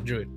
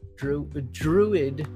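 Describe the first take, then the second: First: The word is said on one flat pitch. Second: The word is said with normal changing pitch. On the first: It names the different class from another universe. "Just got to say it in the monotone" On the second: It names the class from the familiar games. "is from the main games that you guys know of"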